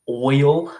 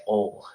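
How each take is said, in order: First: "oil" said in full, with the glide; careful pronunciation. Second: "ol" for oil, with no glide; local pronunciation. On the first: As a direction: say "oil" clearly as oy-ul, a bit louder. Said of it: "certain word that usually is just difficult for my accent". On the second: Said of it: "a lot of people around my area just say". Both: Shown as a demonstration.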